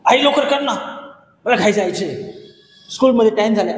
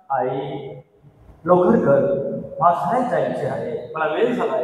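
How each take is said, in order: First: Impatient demand. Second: Said in the usual way. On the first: Shown as a demonstration. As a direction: push her to hurry up, irritated. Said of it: "असं म्हणा तुम्ही". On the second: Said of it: "असं बोलणार ना? बिलकुल नाही बोलणार".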